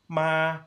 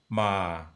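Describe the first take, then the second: First: The syllable is said in a high pitch register. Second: The syllable is said in a low pitch register. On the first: "you had a high register" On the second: "and a low register"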